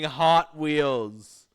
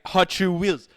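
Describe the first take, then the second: First: It is said with an English accent. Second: It is said with a Portuguese accent.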